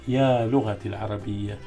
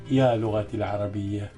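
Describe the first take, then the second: No difference in how they are said.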